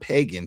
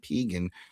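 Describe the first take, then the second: First: The name sounds like the word pagan. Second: The name does not sound like pagan. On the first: The speaker calls it wrong. "not not pagan" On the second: The speaker calls it right. "Pegan, right?"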